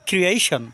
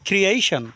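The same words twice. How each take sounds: The two takes are said the same way.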